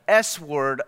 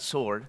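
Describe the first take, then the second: First: It is said as s-word, with the w sounded. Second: It is said as sord, with a silent w. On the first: "the S word of the Spirit" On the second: "Some people pronounce that sword"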